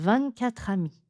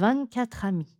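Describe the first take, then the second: First: The T of vingt is silent. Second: The T of vingt is silent.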